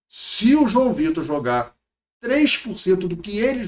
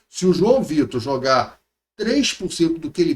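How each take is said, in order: First: It is spoken slowly and deliberately. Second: It is spoken at a normal, quicker pace.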